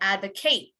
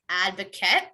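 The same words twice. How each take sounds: First: The last syllable is a full 'eight' sound. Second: The last syllable is a short weak 'it'. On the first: It is the verb. "if it's a verb, you would say advocate" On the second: It is the noun. "if it's a noun, you would say advocate"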